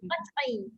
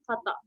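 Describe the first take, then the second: First: A vowel follows the ain at the end. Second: The word ends on the ain without a vowel.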